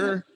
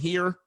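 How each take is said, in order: First: The word is said with an 'er' vowel. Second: The word is said with a clear 'ear' vowel. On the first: "we say her" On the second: "instead of saying here"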